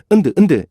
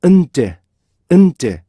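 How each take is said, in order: First: Loose, flowing 은드; without a stop. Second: 은제 with a held nasal, then a crisp 제; split, forceful 은제; separated release. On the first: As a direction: say 은드 quickly, unseparated. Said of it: "이게 아니고요". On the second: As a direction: hold 은, then pop 제. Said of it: "이렇게 하셔야죠". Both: Shown as a demonstration.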